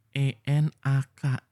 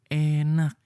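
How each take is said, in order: First: "E N A K" spelled slowly, letter by letter. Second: "Enak" said firmly and a little louder; emphatic enak. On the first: ("E N A K" dieja pelan huruf demi huruf) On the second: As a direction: hammer the word "Enak" home. ("Enak" diucapkan tegas dan agak keras) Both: Shown as a demonstration.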